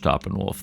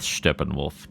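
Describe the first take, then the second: First: [name] said as SHTOP-en-wolf; correct pronunciation. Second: [name] said as SHTEP-en-wolf; earlier attempted pronunciation. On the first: Host repeats what he learned, [name] as Shtoppenwolf. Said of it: "knowing that it's pronounced [name]". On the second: Host recalls his non-American attempt, [name] as Shteppenwolf. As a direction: begin [name] with "shtep", an E vowel. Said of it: "what I was doing with [name]". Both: Shown as a demonstration.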